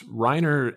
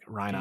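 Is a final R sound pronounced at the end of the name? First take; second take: yes; no. First: The name ends with a clear R sound. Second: The name ends in a vowel without R. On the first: "It's Reiner in the dub" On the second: "they don't pronounce like the final R"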